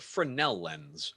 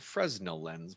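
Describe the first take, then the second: First: The s in Fresnel is silent. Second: The s in Fresnel is pronounced. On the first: The speaker calls it right. "It's called a Fresnel lens" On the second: The speaker calls it wrong. "often mispronounced as a Fresnel lens"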